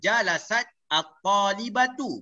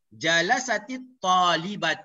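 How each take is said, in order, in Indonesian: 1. Bunyi t di akhir jalasat berdiri sendiri, karena kata berikutnya terpisah. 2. Vokal 'i' menyambungkan jalasat ke kata berikutnya. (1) "macam tadi kita baca jalasat at-talibatu, betul?" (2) "maka kita letakkan uh, baris mati itu dengan baris bawah"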